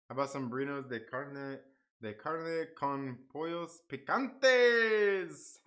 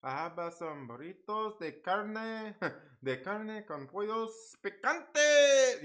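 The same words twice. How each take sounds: First: Attempted Spanish accent, last word drawn out. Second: Spanish accent. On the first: Streamer trying a Spanish dish name, in a Spanish accent. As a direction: try a slow-ending Spanish accent. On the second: Streamer mocking his own Spanish attempt, in an exaggerated Spanish accent. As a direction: stretch out a mock Spanish accent to a big finish. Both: Shown as a demonstration. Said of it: "say all that in a Spanish accent".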